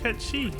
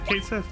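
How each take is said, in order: First: The name is run together, ending in 'chee'. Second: The name is said as two words, ending in 'sith'. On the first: This is the newer, more accurate way of saying it. "This is a cute pronunciation, too" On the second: This is the familiar, older way of saying it. "I instinctively still go to Kate Sith because I'm that's what I grew up with"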